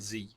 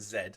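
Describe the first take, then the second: First: The letter is said the American way, zee. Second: The letter is said the British way, zed.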